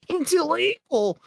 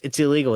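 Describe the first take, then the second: First: It is read in a put-on, dweeby character voice. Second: It is read in a plain, natural voice.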